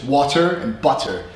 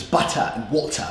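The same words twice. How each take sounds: First: Water and butter with American R's; American pronunciation. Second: Butter and water, crisp T, no final R, British; Queen's English. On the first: Shown as a demonstration. Teacher contrasting with British, American water and butter. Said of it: "So in American English". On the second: Retold or imitated. Teacher contrasting accents, imitated Queen's English. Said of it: "the Queen's English".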